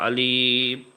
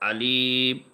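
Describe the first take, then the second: Both takes have the same delivery.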